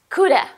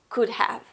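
First: The words blend into one reduced word. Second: The two words are pronounced fully and separately.

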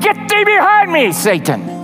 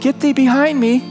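First: It is said loudly and forcefully. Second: It is said softly and timidly.

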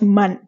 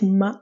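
First: The name ends with a clear n sound. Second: The name ends on the vowel, with no n. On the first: The speaker calls it wrong. "not Man. Don't say Man" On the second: The speaker calls it right. "we call it Ma"

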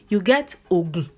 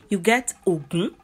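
First: Low tone on the first syllable, low on the second. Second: Low tone on the first syllable, high on the second. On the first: "If you put do on the O and you put do on the U" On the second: "if you put the do on the O and you put the mi on the U"

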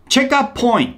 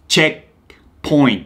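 First: An extra vowel follows the k sound. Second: The k and t are held without release. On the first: "カメルーン発音で、こっちはチェカチェカってなってる" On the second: "アメリカはどっちも聞こえない。K もT も止めてるんで息を。"

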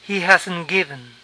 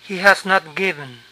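First: 'Has not' is contracted to 'hasn't'. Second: 'Has not' is said as two full words. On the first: "Es más común abreviar esto así" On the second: "ponemos not entre has y el participio"

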